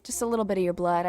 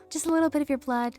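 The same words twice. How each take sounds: First: Said in the usual way. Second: Higher, faster, creepy sing-song Toga; Toga's creepy voice. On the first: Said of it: "Not much". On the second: Retold or imitated. Reader repeating Toga's line, higher and creepy. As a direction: purr it like a bloodthirsty girl. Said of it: "I know that voice".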